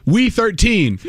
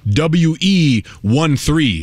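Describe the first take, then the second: First: "We thirteen" with W E run together as one word; higher "We thirteen", letters blended into a word; read as a word. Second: "W E one three" one character at a time, very slowly; slow, separate letters and digits; spelled out. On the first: Retold or imitated. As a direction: say "We thirteen" quickly as word and number. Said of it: "two letters can't make a word". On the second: Shown as a demonstration.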